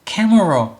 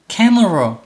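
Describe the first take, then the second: Both takes have the same delivery.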